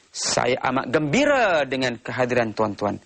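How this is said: The stress is on the word gembira. The speaker highlights how happy he is. "Dia cuba menekankan perkataan gembira"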